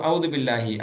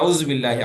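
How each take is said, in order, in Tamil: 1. முதல் வார்த்தையில் v ஒலியும் d ஒலியும் இருக்கு. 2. முதல் வார்த்தையில் v ஒலியும் z ஒலியும் இருக்கு. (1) "ஃபர்ஸ்ட் வார்த்தைய தப்பா ஓதுறோம்" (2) "ஃபர்ஸ்ட் வார்த்தைய தப்பா ஓதுறோம்"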